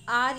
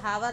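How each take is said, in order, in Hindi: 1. इस शब्द की शुरुआत स्वर से होती है, h साइलेंट है। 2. इस शब्द की शुरुआत h की आवाज़ से होती है। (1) "कहा जाता है" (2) "नहीं कहा जाता"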